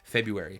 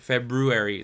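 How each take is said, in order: First: The R after the B is left out. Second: The R after the B is clearly pronounced. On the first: "I just always say February. Like" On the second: "I can't say February. ... That just sounds weird"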